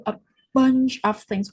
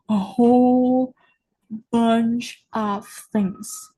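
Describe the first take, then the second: First: Said in the usual way. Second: "whole" drawn out long and loud; emphatic, elongated "whole"; stress on WHOLE. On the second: Real, not acted. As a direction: lean hard on "whole", stretching it. Upgrades own wording for emphasis.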